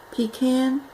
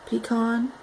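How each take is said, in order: First: Pecan said pee-can, with a flat a like can; pecan, ending rhymes with can; pecan, first way. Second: Pecan said pee-kahn, with an open ah; pecan, ending rhymes with con; pecan, second way. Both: Shown as a demonstration.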